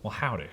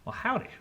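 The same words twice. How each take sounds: First: The character voice is pitched lower. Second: The character voice is pitched higher.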